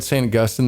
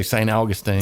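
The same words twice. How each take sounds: First: Said in the usual way. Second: Augustine ending in "-een"; variant pronunciation. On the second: Shown as a demonstration. Host slips into the Florida city's name, Augustine as AW-gus-teen. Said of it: "I wanna say".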